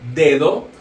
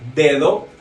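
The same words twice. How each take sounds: No difference in how they are said.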